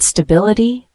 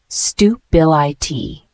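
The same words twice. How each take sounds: First: Said in the usual way. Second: Stu-bil-I-T said slowly, broken into separate syllables; syllable-by-syllable pronunciation. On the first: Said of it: "The word stability". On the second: Shown as a demonstration. Teacher showing learners how the word is pronounced, stu-bil-I-T slowly syllable by syllable. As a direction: sound out stu-bil-I-T, one slow syllable at a time. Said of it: "pronounced as".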